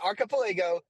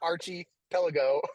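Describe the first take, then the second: First: The word starts with 'ark'. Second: The word starts with 'arch', like 'Archie'. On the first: The speaker calls it right. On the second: The speaker calls it wrong.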